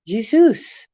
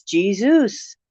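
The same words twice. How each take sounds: First: Jesus said with a soft zh sound, ZHEE-zus, rising; Jesus as ZHEE-zus, questioning rise. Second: Jesus said with a hard J sound, JEE-zus; plain English Jesus. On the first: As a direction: soften the J of Jesus to zh. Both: Shown as a demonstration. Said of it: "Jesus / Jesus / Isus, variant names".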